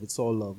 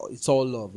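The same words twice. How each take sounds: First: Said in the usual way. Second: Louder catchphrase. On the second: Shown as a demonstration. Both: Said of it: "something that you hear commonly".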